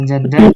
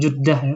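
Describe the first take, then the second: First: The first vowel is an open 'a' sound. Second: The first vowel is a rounded 'u' sound. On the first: "bisa Jeddah" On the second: "sebagian mungkin Jeddah ya, pakai pakai dhamma"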